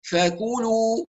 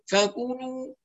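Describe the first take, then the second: First: "فكلوا" as pure with the nose closed; non-nasal vowels. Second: "فكلوا" humming in the nose, like "fakuunuu"; nasalised vowels. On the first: Teacher demonstrates the nose test, non-nasal vowels. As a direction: keep "فكلوا" wholly in the mouth, drawn out. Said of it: "لو أغلقت الأنف ونطقت". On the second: Teacher shows what is incorrect, nasalised vowels. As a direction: let the u of "فكلوا" leak through the nose. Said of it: "هذا لا يصح". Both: Shown as a demonstration.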